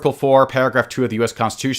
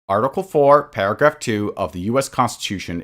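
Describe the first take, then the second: First: It is read at a normal pace. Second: It is read slowly and deliberately.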